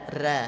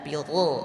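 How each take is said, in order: First: The r syllable is light with an open a. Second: The r syllable is heavy with an o vowel. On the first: The speaker calls it wrong. "tidak boleh bunyi ra" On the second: The speaker calls it right. "Harus ada vokal tebalnya atau vokal o-nya"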